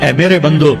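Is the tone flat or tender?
flat. It is said in a flat, unaffectionate tone. The speaker calls it wrong.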